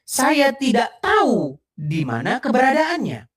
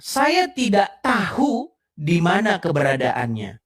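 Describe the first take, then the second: First: The h in tahu is dropped. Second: The h in tahu is pronounced. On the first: "yang satu tahu hanya hilang" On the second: "Yang satu tahu ada hanya"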